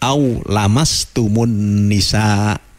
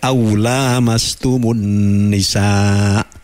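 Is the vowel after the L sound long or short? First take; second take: short; long. First: The vowel after the L is short. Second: The vowel after the L is long. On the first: Merely touching. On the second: Touching each other mutually.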